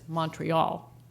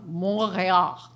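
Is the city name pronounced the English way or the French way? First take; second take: English; French. First: The name is pronounced the English way. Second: The name is pronounced the French way. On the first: This is the form most listeners know. "the city known to most English speakers as Montreal" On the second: The speaker insists on the native pronunciation. "He always pronounces the names of people and places as native speakers of the languages, would or should"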